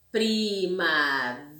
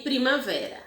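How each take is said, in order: First: Primavera said slowly with vé held long; stress on VE. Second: Said in the usual way. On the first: Shown as a demonstration. Teacher slowly showing the class the tonic vé. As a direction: linger on the vé in Primavera. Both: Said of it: "demoramos mais no vé".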